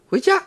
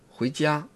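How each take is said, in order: First: It is said with a high, squeezed pitch. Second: It is said with a low, falling pitch.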